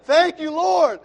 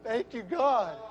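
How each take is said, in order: First: Lifts the thanks into a loud, high cry; full-voiced shout of thanks; shouted praise. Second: Said in the usual way. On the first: Real, not acted. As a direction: cry it out to the Lord. Thanking God, then shouting praise.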